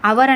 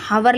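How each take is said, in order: First: The word starts with a vowel, no h sound. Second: The word starts with an audible h sound. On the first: "పలికేటప్పుడే అవర్ అని పలుకుతాం, కానీ హెచ్ silent" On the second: "హవర్ లాగా"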